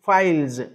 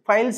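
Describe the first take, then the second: First: The word ends with a buzzing z sound. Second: The word ends with a hissing s sound. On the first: The speaker calls it right. "ఎస్ని majority of the times జెడ్ లాగే చదువుతాం" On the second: The speaker calls it wrong. "ఫైల్స్ ఫైల్స్ అనకూడదు"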